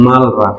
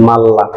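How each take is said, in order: First: "মাল, রা" said as two separate parts with a break; বানান অনুযায়ী ভেঙে "মাল, রা" বলা; separated syllables. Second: "মাল্লা" with the l doubled and merged, no break; ল মিলিয়ে দ্বিত্ব করে "মাল্লা"; merged double l. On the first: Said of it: "হওয়ার কথা ছিল". ("মাল, রা" ভেঙে আলাদা করে উচ্চারণ) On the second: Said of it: "উচ্চারণটা হবে". ("মাল্লা" লাম মিলিয়ে একটানা উচ্চারণ) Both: Shown as a demonstration.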